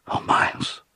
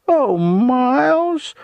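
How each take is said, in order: First: Faint, whispery moan; sick, subdued moan. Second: Very high, loud, drawn-out simper; venomous simpering. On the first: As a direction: moan it weakly, as if about to be sick. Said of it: "subdued sort of moan". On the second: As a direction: simper it slowly with venom underneath. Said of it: "said then in a simpering voice". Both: A narrator's reading.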